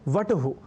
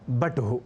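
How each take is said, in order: First: The word begins with a v sound. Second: The word begins with a b sound. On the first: "व और ब के मध्य कोई अंतर नहीं है" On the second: "व और ब के मध्य कोई अंतर नहीं है"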